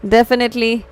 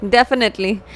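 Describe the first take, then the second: No difference in how they are said.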